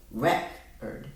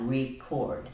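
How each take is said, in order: First: "record" as REC-ord, short e closed by the c; closed first syllable. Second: "record" as ree-CORD, first vowel nearly long e. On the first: Teacher explaining syllables, "record" said as REC-ord. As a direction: break "record" after a stressed REC. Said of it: "keep that in a closed syllable". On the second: Teacher explaining half-long vowel, "record" said as ree-CORD. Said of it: "It was almost like a long vowel". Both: Shown as a demonstration.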